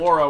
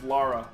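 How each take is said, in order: First: The first vowel sounds like 'Laura', with a U. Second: The first vowel sounds like 'Lara', without a U. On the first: The speaker calls it wrong. "Laura with a U" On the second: The speaker calls it right. "It's Lara"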